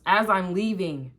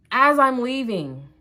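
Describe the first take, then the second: First: Said in the usual way. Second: "As I'm leaving" slow, loud and higher; slow, raised-voice emphasis on "As I'm leaving"; emphatic repeat. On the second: Real, not acted. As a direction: stretch out "As I'm leaving" for drama.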